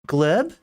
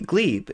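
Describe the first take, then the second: First: The vowel is short, as in 'leg'. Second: The vowel is long, as in 'glee'. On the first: "It's pronounced Gleb. It's one syllable" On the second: "it's glee with a b"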